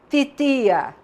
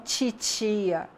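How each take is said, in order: First: The t sounds are plain, without hissing. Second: The t sounds are hissed, like ch. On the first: The speaker calls it right. "como fala lá no Nordeste" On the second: The speaker calls it wrong. "como fala aqui no estado do Rio"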